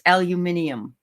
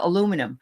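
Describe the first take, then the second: First: It is said the British way. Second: It is said the North American way.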